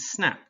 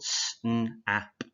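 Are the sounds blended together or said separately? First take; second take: Blended; Separately. First: The sounds run together smoothly as one word. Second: Each sound is said separately with gaps between.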